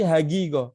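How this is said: The qaf sounds are said like g. "kalau antum ke Mesir ya, ko itu jadi G"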